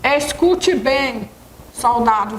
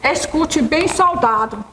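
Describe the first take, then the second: First: There is a pause before soldado. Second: There is no pause before soldado.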